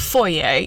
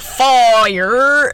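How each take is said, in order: First: The word is said in a fancy way. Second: The word is said in a Southern way. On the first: "for us fancy people" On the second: "I can tell you're from South Carolina"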